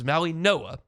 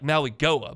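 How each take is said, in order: First: The name is said with a nasal sound. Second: The name is said with a hard g sound. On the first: This is how the name is actually said. The speaker calls it right. "but it's Maui Noah" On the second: This is how the spelling suggests it is said. The speaker calls it wrong. "It looks like Maui Goa"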